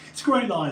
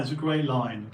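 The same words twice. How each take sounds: First: Excited. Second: Said in the usual way. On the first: Real, not acted.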